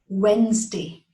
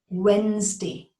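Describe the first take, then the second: First: The D is silent, giving two syllables. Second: The D is silent, giving two syllables.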